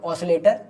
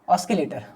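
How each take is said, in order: First: No k sound follows the s. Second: A k sound follows the s.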